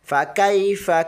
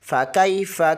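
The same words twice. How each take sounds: Both takes have the same delivery.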